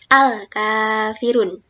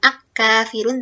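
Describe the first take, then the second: First: The L is clearly pronounced before the K. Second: The L is dropped and merges into the K. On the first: The speaker calls it right. "Lamnya terbaca dengan jelas" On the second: The speaker calls it wrong. "Bukan ak-kafirun"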